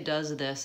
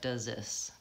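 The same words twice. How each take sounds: First: The th sound of this is clearly pronounced. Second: The th sound merges into the z sound. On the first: "when you say does this" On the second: "it sounds more like does this"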